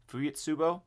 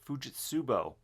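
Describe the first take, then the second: First: "Fujitsubo?" with a questioning rise at the end; unsure pronunciation. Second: Said in the usual way. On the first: Real, not acted. Reviewer unsure how you pronounce the watch's name, questioning "Fujitsubo?". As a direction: try out "Fujitsubo" as a question, tune lifting at the end. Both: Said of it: "Not sure exactly how you pronounce it".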